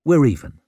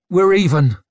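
First: Firm but less forceful reply; conceding retort. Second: Loud, high, forced out; through gritted teeth. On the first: Brock looking back to Rika, conceding retort. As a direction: concede it curtly, voice slightly raised. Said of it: "He looked back to Rika". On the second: Rika furious at Brock's sneer, forced through gritted teeth. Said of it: "she forced through gritted teeth". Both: A narrator's reading.

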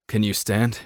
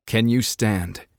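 First: Said in the usual way. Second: Slow, emphasised "Can you stand?" with "you" stressed; slow and deliberate. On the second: A narrator's reading. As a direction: spell it out slowly for a dazed girl. Kai asks again slowly.

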